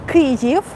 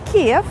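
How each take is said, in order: First: The name is said in the form 'Kyiv'. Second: The name is said in the form 'Kiev'. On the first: The speaker calls it right. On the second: The speaker calls it wrong.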